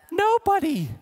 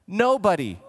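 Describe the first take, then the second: First: Exclaimed. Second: Said in the usual way. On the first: Real, not acted. Rhetorical answer, exclaimed.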